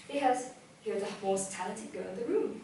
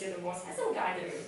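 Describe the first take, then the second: First: Said in the usual way. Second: Fast, low mock boast of the handsome guy; mock manly boast. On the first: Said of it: "repeats the affirmation for students". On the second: Teacher mimics the student's boast, fast and low. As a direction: echo his swagger in a quick low voice. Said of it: "mimics the guy's line".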